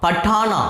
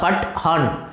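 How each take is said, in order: First: The name is said joined, as one unit. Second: The name is split into pat and han. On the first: The speaker calls it wrong. "சேர்த்து படிக்கக்கூடாது" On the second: The speaker calls it right. "பிரித்து படிக்கணும்"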